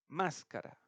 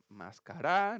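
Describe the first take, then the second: First: The stress is on the first syllable. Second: The stress is on a later syllable. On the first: The speaker calls it right. "dice máscara" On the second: The speaker calls it wrong. "No dice máscara"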